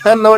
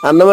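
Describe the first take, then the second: First: The word starts with an added h sound. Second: The word starts directly with a vowel. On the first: The speaker calls it wrong. "హ అన్నం అంటారా?" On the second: The speaker calls it right. "అన్నం అంటారా"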